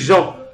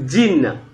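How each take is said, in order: First: The name is pronounced the French way. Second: The name is pronounced the English way. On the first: "En français, on dit" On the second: "Mais en anglais, on prononce"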